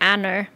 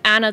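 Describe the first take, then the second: First: It is said with an r at the end. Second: It is said without an r at the end.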